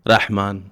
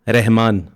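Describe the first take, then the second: First: The word is said with its Arabic vowel. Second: The word is said with its Urdu vowel. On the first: "अरबी में है" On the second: "Urdu में है"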